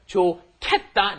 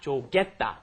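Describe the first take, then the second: First: The middle k sound is strongly aspirated. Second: The middle k sound is plain, unaspirated. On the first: The speaker calls it right. "it becomes 좋겠다" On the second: The speaker calls it wrong. "not 좋겠다"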